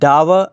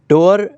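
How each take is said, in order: First: The vowel sounds like the one in 'tower'. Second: The vowel sounds like the one in 'door'. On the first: "मेरियम Webster में डावर pronounce किया जा रहा है" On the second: "डोर भी पढ़ा जाएगा"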